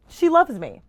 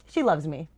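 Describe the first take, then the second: First: Higher, louder burst of joy; gushing excitement; excited squeal. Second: Said in the usual way. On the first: Real, not acted. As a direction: blurt it out thrilled. Excited repeat of gift.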